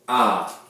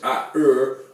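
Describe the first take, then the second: First: The letters are said as one single sound. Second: The letters are said as two separate sounds. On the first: The speaker calls it right. "we sound it out as" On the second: The speaker calls it wrong. "we don't sound it out as"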